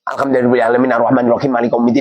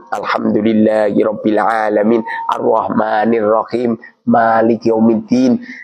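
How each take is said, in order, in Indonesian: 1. Menyambung ayat-ayatnya dengan cepat tanpa jeda. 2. Berhenti untuk bernapas setelah setiap ayat. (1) "Iki payah. Salate wis ngebut" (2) "setiap satu ayat satu ayat ya unjal ambekan ngono"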